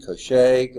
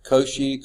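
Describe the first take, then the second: First: Cauchy said as koh-SHAY; Cauchy with a "sh" and a French-style final "ay"; alternative pronunciation. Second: Cauchy said as KOH-shee; Cauchy with a "sh" and a final "ee"; alternative pronunciation. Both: Shown as a demonstration. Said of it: "how you pronounce that".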